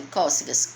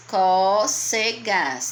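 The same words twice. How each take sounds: First: Said in the usual way. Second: "Cócegas" very slow, split into có-ce-gas; syllable by syllable. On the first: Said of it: "Quantas sílabas tem cócegas?". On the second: Shown as a demonstration. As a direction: stretch each syllable of "Cócegas" loudly and evenly. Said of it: "Tem quantas sílabas?". ("Cócegas" bem devagar, separando có-ce-gas)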